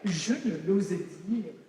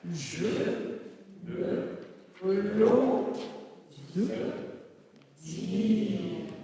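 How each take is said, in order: First: It is said quickly, words run together. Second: It is said slowly, word by word.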